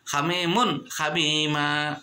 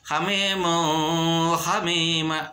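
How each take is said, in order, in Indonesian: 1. Bunyi n diucapkan dengan jelas. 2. Bunyi n tidak diucapkan dengan jelas. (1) "harus jelas" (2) "tidak boleh dibacanya"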